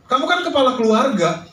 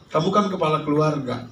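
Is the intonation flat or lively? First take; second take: lively; flat. First: It is said with strongly varied, reproachful intonation. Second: It is said with flat, even intonation. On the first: "tapi intonasinya saya rubah" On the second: "Bapak Ibu dengarnya dari saya biasa aja"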